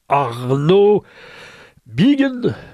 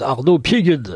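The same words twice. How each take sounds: First: The surname is pronounced the French way. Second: The surname is pronounced the German way.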